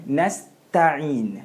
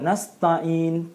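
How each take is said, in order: First: The t sound is thin and light. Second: The t sound is slightly thickened and heavy. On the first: The speaker calls it right. "kita nak iyyaka na'budu wa iyyaka nasta'in" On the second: The speaker calls it wrong. "ta yang dibaca itu tertebal sedikit"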